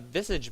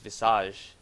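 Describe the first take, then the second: First: The name is said with an English pronunciation. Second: The name is said with a French pronunciation. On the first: "I'm pretty sure that is how you pronounce it" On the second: "I am very used to saying him, uh, saying his name as Visage. That is actually face in French"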